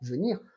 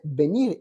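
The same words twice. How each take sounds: First: It is pronounced with French sounds. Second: It is pronounced with Spanish sounds. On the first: The speaker calls it wrong. "et non pas venir" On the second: The speaker calls it right. "tu as prononcé venir"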